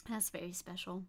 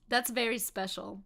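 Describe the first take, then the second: First: Much softer, lower deadpan repeat; dry muttered aside. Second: Said in the usual way. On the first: Shown as a demonstration. Streamer on the Saxon accent, dry soft deadpan. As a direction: drop it low and dry, like a wry aside.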